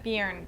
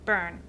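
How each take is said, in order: First: A 'y' glide follows the first consonant. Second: No glide follows the first consonant. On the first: The speaker calls it wrong. "I used to pronounce it Bjorn" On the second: The speaker calls it right. "but I think it's Bern"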